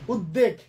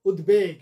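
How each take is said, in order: First: উদ্বেগ said as ud-deg, no b; mistaken doubled d. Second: উদ্বেগ said as ud-beg with a clear b; b sounded. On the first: Teacher quoting students' mistake, ud-deg with doubled d. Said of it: "যে ভুল উচ্চারণটা শুনি আমরা". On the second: Teacher correcting students' mistake, ud-beg with b. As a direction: keep the ব audible in উদ্বেগ: ud-beg. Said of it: "বফলার উচ্চারণ ঠিক থাকে". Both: Shown as a demonstration.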